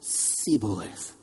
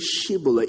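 First: The word begins with an s sound. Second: The word begins with an sh sound. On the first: The speaker is revealed as an outsider. The speaker calls it wrong. "it comes out as Shibboleth" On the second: This is the intended pronunciation. The speaker calls it right. "they tried to say Shibboleth"

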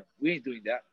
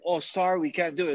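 First: It sounds blunt and dismissive. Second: It sounds polite and apologetic.

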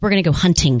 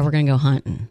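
First: The T in hunting is clearly pronounced. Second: The T in hunting is dropped. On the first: This is not how people around here say it. The speaker calls it wrong. "I don't think there's a lot of people around here that go" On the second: This is how people around here say it. The speaker calls it right.

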